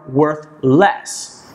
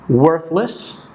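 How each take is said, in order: First: It is said as two separate words. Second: It is said as one linked word.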